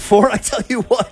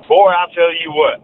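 First: Higher-pitched imitation of a Southern catchphrase; playful copy of Southern talk; imitated Southern saying. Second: Slow Southern drawl on a local catchphrase; Southern accent, slow and emphatic; Southern saying. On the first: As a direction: try on the Southern phrase, pitched up. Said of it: "maybe I should start my sentences". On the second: Shown as a demonstration. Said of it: "something everyone says down here".

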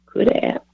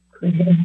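First: Barely whispered, breath only. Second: Said in the usual way. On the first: Real, not acted. Preacher reflecting on his near-miss, whispered. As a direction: let it slip out as a whisper. Whispered musing on what might have been.

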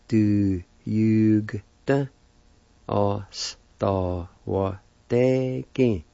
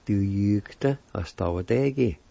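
First: Du jugte oss da var deg dragged out slowly, falling on deg; very slow syllables. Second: Said in the usual way. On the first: Shown as a demonstration. Teacher joining both parts, very slow for students. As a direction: stretch every syllable for the learners. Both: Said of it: "And together".

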